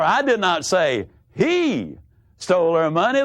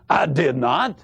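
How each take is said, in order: First: The stress is on "he". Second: The stress is on "not".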